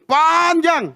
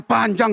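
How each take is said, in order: First: PANJANG drawn out high; stretched emphasis. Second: Said in the usual way. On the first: Shown as a demonstration. Long queue, word exaggerated.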